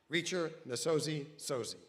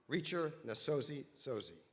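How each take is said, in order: First: Loud, ringing name call; excited introduction. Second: Said in the usual way. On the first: Real, not acted. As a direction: announce her name with a big welcome. Announcer calls speaker's name.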